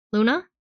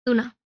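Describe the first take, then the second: First: A questioning call, the name rising at the end. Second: Said in the usual way. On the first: A narrator's reading. Matthias bursting in, calling her name questioningly. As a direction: ask the name through the door. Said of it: "It's Matthias".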